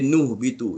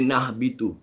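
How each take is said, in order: First: The n is followed by a u vowel. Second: The n is followed by an a vowel. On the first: "tak boleh baris depan" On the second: "Dia tak boleh baris atas"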